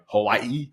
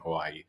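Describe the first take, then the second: First: Hawaii is said the careful Hawaiian way. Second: Hawaii is said the everyday English way. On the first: The speaker is trying to be respectful of the name. "He's trying to say it properly, heavily emphasizing" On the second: The speaker is not paying attention to the name. "the other guy just being like"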